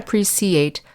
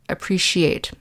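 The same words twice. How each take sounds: First: The middle consonant is a hissing s sound. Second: The middle consonant is a hushing sh sound. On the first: The speaker calls it wrong. "So not appreciate" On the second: The speaker calls it right. "the C in appreciate makes the sh sound"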